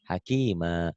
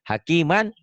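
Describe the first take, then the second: First: The word ends with a long vowel. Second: The word ends with an n sound. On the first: The reading stops on this word. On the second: The reading continues without a stop.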